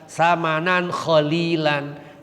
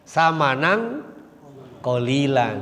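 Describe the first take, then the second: First: The second word begins with a raspy kh sound. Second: The second word begins with a hard q sound. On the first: It means a chosen price. The speaker calls it wrong. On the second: It means a small price. The speaker calls it right.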